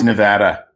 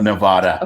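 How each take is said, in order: First: It is said the way local residents say it. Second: It is said the way outsiders say it. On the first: The speaker calls it right. "it's Nevada, I think you should pronounce it the way the people that live there pronounce it" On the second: The speaker calls it wrong. "not Nevada. It irritates the living hell out of people that live here"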